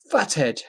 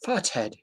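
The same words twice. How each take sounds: First: Said in the usual way. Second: Lightly put-on British accent. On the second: Shown as a demonstration. Reading a fighter's insult post, in British accent. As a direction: say it with a hint of British. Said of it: "In a British accent, I'll say".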